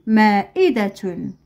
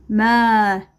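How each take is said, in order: First: "مائدة" slowly, joined into one word; slow whole word. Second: "مائدة" split, with long first syllable. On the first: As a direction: say "مائدة" carefully without breaks. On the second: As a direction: stretch "مائدة" out, pausing between syllables. Teacher splits word, then joins it. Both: Shown as a demonstration.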